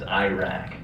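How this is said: The name is said with American pronunciation. "the American pronunciation is Iraq"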